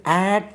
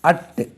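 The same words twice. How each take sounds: First: "at" with a full open "a" as in cat; full-vowel "at", not "ut"; strong form of "at". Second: "at" with a short reduced vowel, like "ut"; teacher's short "at", vowel reduced; weak form of "at". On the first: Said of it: "உச்சரிப்போம் சில இடங்கள்ல, strong form". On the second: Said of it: "இதை வந்து at என்றும்". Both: Shown as a demonstration.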